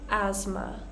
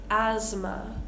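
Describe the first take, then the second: The two takes are said the same way.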